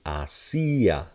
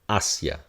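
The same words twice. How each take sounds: First: The i is stressed, three syllables. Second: The i glides into the a, two syllables. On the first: "if we put a stress on it" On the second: "this is going to become a glide"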